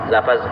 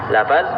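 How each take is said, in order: No difference in how they are said.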